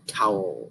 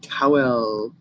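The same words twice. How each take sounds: First: The word is squeezed into one syllable. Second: The word has two full syllables. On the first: This is how people casually talk nowadays. "we just say towel" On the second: This is the older, careful way of saying it. "instead of saying towel"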